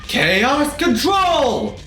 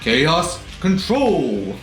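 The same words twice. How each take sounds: First: The phrase is said with intense, forceful energy. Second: The phrase is said calmly with low energy. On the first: The speaker calls it right. "instead of saying it like" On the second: The speaker calls it wrong. "he says it so calmly"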